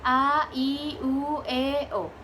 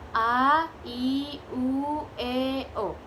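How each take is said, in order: First: The vowels are said quickly. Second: The vowels are said at medium speed. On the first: "set cepat" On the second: "set medium atau sedang"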